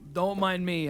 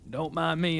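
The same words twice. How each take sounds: First: It is said in the speaker's ordinary accent. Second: It is said in a put-on Southern accent.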